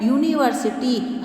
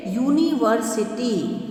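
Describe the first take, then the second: First: Said in the usual way. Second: Drawn-out teacher demo of university; slow model word. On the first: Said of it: "क्या आ रहा है". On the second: Shown as a demonstration. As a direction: say university slowly, each syllable clear. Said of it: "जैसे".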